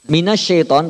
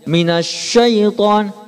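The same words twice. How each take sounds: First: The lips stay fairly relaxed on sya. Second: The lips are pushed strongly forward on sya. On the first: The speaker calls it right. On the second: The speaker calls it wrong.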